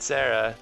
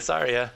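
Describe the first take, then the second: First: The name is said with two syllables. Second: The name is said with three syllables. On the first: The speaker calls it wrong. "not Sarah" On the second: The speaker calls it right. "it definitely Saria"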